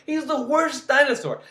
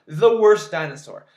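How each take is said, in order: First: "worst" leaned on, higher pitch; stress on worst. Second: "worst" punched louder, like a movie title; announcing a title. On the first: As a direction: hit "worst" in "He's the worst dinosaur" with a raised, exasperated voice. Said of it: "That'd be the perfect title". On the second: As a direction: say "The worst dinosaur" as a loud, mock title announcement. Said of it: "That'd be the perfect title for this movie". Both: Real, not acted.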